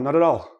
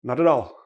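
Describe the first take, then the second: Both takes have the same delivery.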